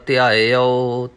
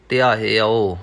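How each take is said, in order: The two takes are said the same way.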